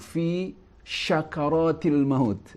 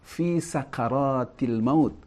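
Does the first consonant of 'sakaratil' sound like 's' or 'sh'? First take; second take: sh; s. First: The word starts with an 'sh' sound. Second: The word starts with a plain 's' sound. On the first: The speaker calls it wrong. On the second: The speaker calls it right. "Ingat bahwa ini menggunakan sin"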